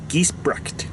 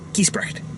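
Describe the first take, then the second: First: The ending uses a hard k sound before t. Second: The ending uses a hissing throat sound before t. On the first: "just say like a k, a k sound" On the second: "Sort of like you're hissing like a cat"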